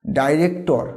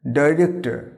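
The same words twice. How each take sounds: First: "ডাইরেক্টর" with full round -tor; wrong pronunciation. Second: "ডাইরেক্টর" ending in weak -tə; silent final r. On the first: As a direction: say "ডাইরেক্টর" as dai-rek-tor, r sounded. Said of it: "এটা কিন্তু চলবে না". ("ডাইরেক্টর" শেষে স্পষ্ট টোর) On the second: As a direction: say "ডাইরেক্টর" as dai-rek-tə. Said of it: "শেষের রটাকে silent করতে হবে". ("ডাইরেক্টর" শেষের র নীরব, ডাইরেক্টা) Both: Shown as a demonstration.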